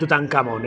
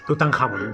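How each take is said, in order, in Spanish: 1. La consonante tras Tutan es un sonido k simple. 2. La consonante tras Tutan es un sonido kh gutural. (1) "Nada de Tutankamón" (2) "ya lo sabéis"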